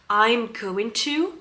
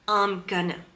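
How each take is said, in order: First: Going to is said fully, word by word. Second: Going to is blended together into gonna. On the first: "It's too slow, you know, it's too heavy for them" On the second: "They're going to say I'm gonna"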